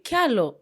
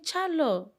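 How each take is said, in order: First: The name begins with a k sound. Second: The name begins with a ch sound. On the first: This form is used in the speaker's own clan. The speaker calls it right. "We say Kialo" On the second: This form is used in other parts of the region. The speaker calls it wrong. "we don't have the cha"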